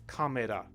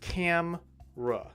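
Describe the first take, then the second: First: The word is said in three syllables. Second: The word is said in two syllables. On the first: The speaker calls it wrong. "But in Japanese, kamera. That's three sounds or three syllables" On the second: The speaker calls it right. "camera is two sounds in English, natural English, or two syllables"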